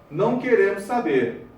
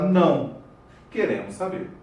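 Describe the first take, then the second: First: There is no pause after 'não'. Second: There is a pause after 'não'.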